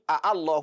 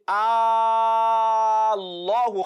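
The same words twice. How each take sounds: First: Two separate a sounds are said at the start. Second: One long, merged a sound is said at the start. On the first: The speaker calls it wrong. "instead of saying" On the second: The speaker calls it right. "we say"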